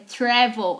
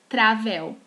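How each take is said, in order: First: The first vowel is not an open 'ah' sound. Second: The first vowel is an open 'ah' sound. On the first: The speaker calls it right. "é travel" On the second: The speaker calls it wrong. "Lembra que a letra A em inglês não tem som de A. Então não é travel"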